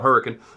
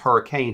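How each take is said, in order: First: The name is said the local West Virginian way. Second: The name is said the way outsiders say it.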